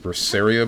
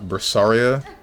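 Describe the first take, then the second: First: The second syllable has a 'say'-like vowel. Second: The second syllable has a 'sah'-like vowel. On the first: The speaker calls it right. "It's Berseria" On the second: The speaker calls it wrong. "not Bersaria"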